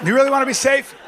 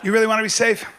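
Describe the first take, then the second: First: High, loud challenge; loud question. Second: Said in the usual way. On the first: Shown as a demonstration. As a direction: hit it hard the first time. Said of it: "repeated quieter".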